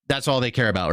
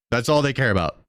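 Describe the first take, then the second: First: Said in the usual way. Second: Said through a real laugh. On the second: Real, not acted. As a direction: chuckle your way through it. Repeats line, laughing now.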